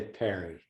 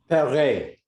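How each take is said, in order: First: The name is said without an accented E. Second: The name is said with an accented E. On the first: "it's just easier to say Perry" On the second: "with an accent on the E"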